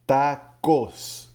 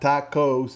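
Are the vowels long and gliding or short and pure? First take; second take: short; long. First: The vowels are short and pure, Spanish-style. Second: The vowels are long and gliding, English-style. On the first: The speaker calls it right. "in Espanol, all vowels are short vowels" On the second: The speaker calls it wrong. "it's not tacos"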